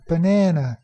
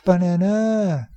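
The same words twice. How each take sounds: First: The second syllable is longer, higher and louder. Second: The second syllable is not longer or louder. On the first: The speaker calls it right. "That second syllable is longer, higher pitched, and even a little bit louder" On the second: The speaker calls it wrong. "their stress system is different"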